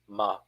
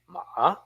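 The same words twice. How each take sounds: First: The pitch falls low, as if laid down. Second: The pitch starts low, then goes up. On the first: "say this like you're laying it down" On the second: "start from the bottom, then go up"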